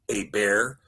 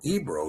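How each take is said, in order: First: The name ends with an 'er' sound. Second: The name ends with an 'o' vowel sound. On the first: "not Eber" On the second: "or Ebro even"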